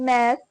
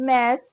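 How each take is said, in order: The two takes are said the same way.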